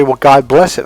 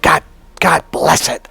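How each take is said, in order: First: Said in the usual way. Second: A half-hearted retold yell, slightly raised; mock yell. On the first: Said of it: "some people will say". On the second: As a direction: pretend to blurt it out while mad. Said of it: "I yell out".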